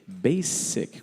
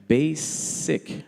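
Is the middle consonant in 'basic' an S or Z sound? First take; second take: S; S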